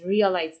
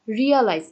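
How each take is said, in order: First: Said in the usual way. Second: realise louder, pushing on রি; stress on RE. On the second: Shown as a demonstration. Teacher stressing the first syllable for students, louder. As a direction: hit the রি of realise hard. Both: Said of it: "জোরে pressure দেওয়া হচ্ছে".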